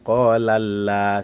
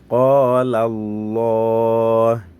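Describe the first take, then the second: First: The L in Allah sounds light and thin. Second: The L in Allah sounds heavy and thick. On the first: The speaker calls it wrong. "On ne dit pas Qala Allah, ce n'est pas là" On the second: The speaker calls it right. "le lam du tafkhim"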